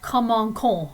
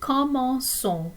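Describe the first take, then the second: First: The middle consonant is a k sound. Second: The middle consonant is an s sound. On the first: The speaker calls it wrong. "it would be str- strange to pronounce it in that way" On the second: The speaker calls it right. "to make it sound like a S"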